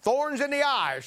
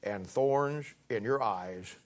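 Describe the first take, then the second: First: Thorns in the eyes called out higher and slower, each word hit; emphatic repeat. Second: Thorns in your eyes drawn out slowly, lower and softer, stress on thorns; slow emphatic quote. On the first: Preacher to congregation, repeating the phrase raised and slow. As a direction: ring out Thorns in the eyes to drive it home. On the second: Preacher to congregation, reading the verse slowly, weight on thorns. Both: Shown as a demonstration. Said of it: "here it comes".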